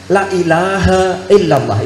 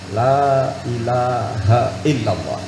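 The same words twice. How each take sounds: First: The vowel in the first 'la' is short. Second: The vowel in the first 'la' is long. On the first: The meaning is reversed. The speaker calls it wrong. "itu artinya terbalik ... itu kalau elanya pendek" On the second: There is no god but God. The speaker calls it right. "tidak ada Tuhan selain Allah"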